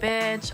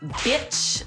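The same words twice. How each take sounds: First: The B is said softly and lightly. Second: The B is hit hard and forcefully.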